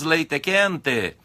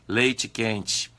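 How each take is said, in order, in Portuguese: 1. As vogais finais são um 'e' claro e forte. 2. As vogais finais soam como 'i'. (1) "Nós não falamos leite quente" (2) "O E, no final de palavra, pronunciamos como se fosse um I"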